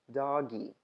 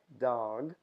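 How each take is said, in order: First: An extra vowel sound is added after the consonant. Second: The word ends cleanly on the final consonant. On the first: The speaker calls it wrong. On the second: The speaker calls it right.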